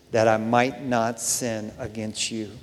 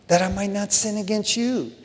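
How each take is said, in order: First: "that I might not sin against you" spaced out slowly, low and soft; solemn, weighted reading. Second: "That I might not sin against you" softly, lifted in pitch, falling on "you"; emphatic repeat. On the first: Verse read, then repeated for emphasis. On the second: Repeats verse to drive it home. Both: Real, not acted.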